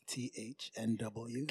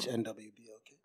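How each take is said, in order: First: The letters are spelled slowly. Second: The letters are spelled at normal speed.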